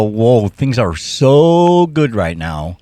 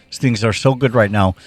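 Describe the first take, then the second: First: Drawn-out, wondering "Whoa"; slow amazed inner voice. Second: Said in the usual way. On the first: Retold or imitated. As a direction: stretch it out slowly, marvelling. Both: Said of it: "my brain will go".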